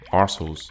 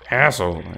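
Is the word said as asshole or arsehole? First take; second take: arsehole; asshole. First: The word is said with the form arse. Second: The word is said with the form ass. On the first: The speaker calls it right. "That's how we say it on this channel" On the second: The speaker calls it wrong. "You don't say assholes"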